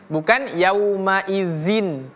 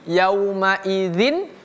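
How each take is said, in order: First: The consonant is a plain buzzing 'z' sound. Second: The consonant is a soft 'th' with tongue on teeth. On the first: The speaker calls it wrong. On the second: The speaker calls it right.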